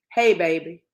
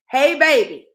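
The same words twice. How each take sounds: First: Said in the usual way. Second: Put-on "baby" hit hard, high and loud; mocking emphasis. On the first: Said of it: "This is exactly what the text said". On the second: Reading the client's text aloud to viewers, loud and mocking. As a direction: lean on "baby" like an insult. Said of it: "and he put a comma".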